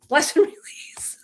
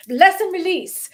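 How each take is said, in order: First: Slow whispered send-off with laughter; mock serene blessing. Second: High, loud, drawn-out send-off; mock blessing. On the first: Sending off those who are offended, whispered mock blessing. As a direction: whisper it slowly, letting a laugh in. Playful blessing after namaste. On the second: Sending off those who are offended, high playful blessing. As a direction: sing out the blessing slowly and high.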